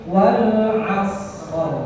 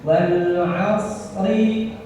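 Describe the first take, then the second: First: The phrase ends on a bare consonant. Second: The phrase ends with a short vowel. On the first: The reading stops at this word. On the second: The reading continues without stopping.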